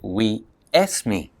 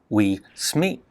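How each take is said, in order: First: An extra E vowel comes before the S. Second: The S starts the second word directly. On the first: "They say we esme" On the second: "they don't say we sme"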